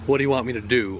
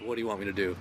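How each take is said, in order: First: It is said sarcastically, with mock exasperation. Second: It is said sincerely, as a genuine question.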